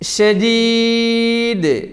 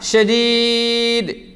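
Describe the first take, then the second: First: The final consonant ends with an echoing bounce. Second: The final consonant stops flat without a bounce. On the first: The speaker calls it right. "ഇപ്പോൾ ഞാൻ നിർത്തിയ ആ നിങ്ങൾ ശ്രദ്ധിച്ചില്ലേ?" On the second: The speaker calls it wrong. "അങ്ങനെയല്ല"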